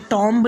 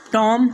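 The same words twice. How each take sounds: First: टॉम्ब said as "tom-b", B sounded; wrong pronunciation with B. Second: टॉम said as "tom", ending on M; silent B. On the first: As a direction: close टॉम्ब on an audible B. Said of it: "टॉम्ब नहीं पढ़ना है". (टॉम्ब के अंत में 'ब' बोलकर) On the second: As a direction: close टॉम on M with no B. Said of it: "बल्कि". (टॉम को 'म' पर खत्म करें, 'ब' नहीं) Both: Shown as a demonstration.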